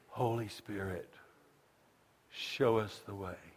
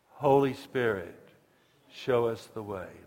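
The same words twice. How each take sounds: First: It is said softly. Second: It is said louder.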